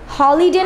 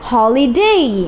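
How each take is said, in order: First: The final vowel is a single plain sound. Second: The final vowel glides into an ee sound. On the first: The speaker calls it wrong. "হলিডে না বলে" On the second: The speaker calls it right.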